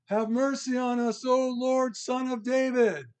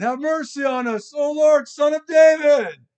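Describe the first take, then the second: First: High, drawn-out plea for mercy; beseeching cry, pitched well above normal. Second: Loud, high shout building in force; full-voiced, high cry for mercy; crying out harder. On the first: Acted. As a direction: call out slowly in a raised, pleading voice. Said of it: "cried out, saying". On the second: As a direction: shout the plea all the more, drawing out the end. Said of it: "they cried out all the more".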